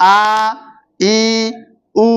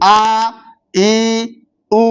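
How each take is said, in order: First: The vowels are drawn out and long. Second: The vowels are drawn out and long.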